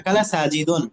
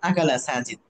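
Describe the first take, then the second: First: The last word ends with an added -un. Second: The last word ends without any added vowel. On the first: This is the full grammatical form. "শেষ অক্ষরে ফাইল সবসময় পেশ হয়" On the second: This is how it is said in normal speech. "যখন স্বাভাবিকভাবে বলবেন"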